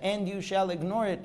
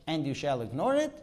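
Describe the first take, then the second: First: Said in the usual way. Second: "And you shall ignore it?" with the pitch rising on "it"; read as a question. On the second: Shown as a demonstration. Teacher reading the verse as a question, rising tune on "it". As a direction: ask "And you shall ignore it?", lifting at the end. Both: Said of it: "is ordinarily read as a question".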